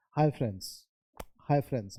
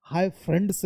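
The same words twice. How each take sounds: First: "फ्रेंड्स" as frens, no D; silent D. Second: "फ्रेंड्स" with D clearly sounded; wrong full D. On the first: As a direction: slide from N to S in "फ्रेंड्स". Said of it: "फ्रेंड्स नहीं बोला है". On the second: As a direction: hit the D in "फ्रेंड्स". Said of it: "hi फ्रेंड्स नहीं". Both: Shown as a demonstration.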